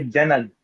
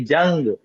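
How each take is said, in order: First: Janag with an extra a before g; wrong janag. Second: Jang with a nasal a, no separate vowel. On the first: Teacher showing student the wrong janag. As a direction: split janag into two syllables. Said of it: "We don't say janag". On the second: Teacher modelling jang for student. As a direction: say jang in one syllable through the nose. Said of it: "so we say jang". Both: Shown as a demonstration.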